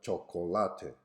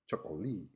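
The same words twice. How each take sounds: First: Four syllables, stressed on the third. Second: Three syllables, stressed on the third. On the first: "having four syllables with the stress on the third one" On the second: "a three-syllable word with a stress on the third syllable"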